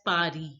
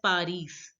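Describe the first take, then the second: First: The final S sound is silent. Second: The final S sound is pronounced. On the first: The speaker calls it right. "It is pronounced as Pari" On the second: The speaker calls it wrong. "It is not pronounced as Paris"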